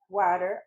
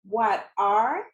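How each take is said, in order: First: The two words run together as one word. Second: The two words are said separately.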